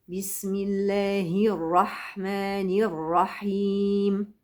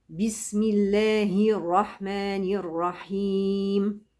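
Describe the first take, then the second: Both takes have the same delivery.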